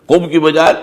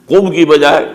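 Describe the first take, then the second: Both takes have the same delivery.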